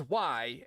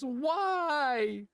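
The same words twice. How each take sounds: First: Said in the usual way. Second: High, drawn-out mock wail; imitated child's crying. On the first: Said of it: "he says". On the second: Dad mimics his son crying after being scolded, plaintive wail. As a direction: imitate a little kid's tearful whine. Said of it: "when he cries, he goes".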